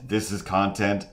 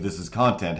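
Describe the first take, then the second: First: Mock outrage, pitched up; incredulous question. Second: Said in the usual way. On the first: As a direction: ask it like you can't believe it. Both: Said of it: "have just been like".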